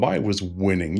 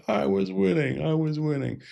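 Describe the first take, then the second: First: Said in the usual way. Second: Put-on high, petulant child whine, fading softer; a spoilt boy dragged off mid-game, complaining; sulky child protesting, pitched much higher; whiny protest. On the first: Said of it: "acting like the petulant child". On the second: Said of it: "still protesting".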